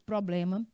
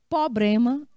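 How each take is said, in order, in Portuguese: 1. É falada de forma padrão. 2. É falada de forma coloquial, não padrão. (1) "ao invés de" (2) "Ele fala"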